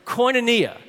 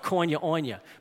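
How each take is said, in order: First: It is said the standard way, not New Orleans style. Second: It is said the way New Orleans speakers say it. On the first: The speaker calls it right. "but it's" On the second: The speaker calls it wrong. "Friends in New Orleans will sometimes pronounce it"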